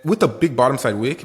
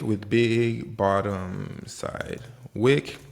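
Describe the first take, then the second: First: Said in the usual way. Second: Very slow, each word stretched out; slow-motion repeat. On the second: Shown as a demonstration. Trader spelling out the pattern for viewers, very slow and stretched. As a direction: draw out "big bottom side wick" word by word. Repeats term very slowly for emphasis.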